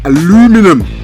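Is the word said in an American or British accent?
American. It is said with an American pronunciation. "I must speak in an American accent"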